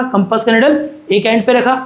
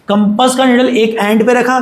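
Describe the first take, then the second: First: Said in the usual way. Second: Slow dictation. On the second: Shown as a demonstration.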